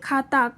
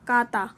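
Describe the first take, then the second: First: The word starts with an aspirated kh sound. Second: The word starts with a plain unaspirated k sound.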